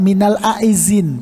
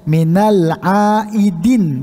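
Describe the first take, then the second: First: The second word has a z sound. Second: The second word has a d sound. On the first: The speaker calls it wrong. "salah, pakai minal aizin, padahal bukan aizin" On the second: The speaker calls it right. "pakai dal"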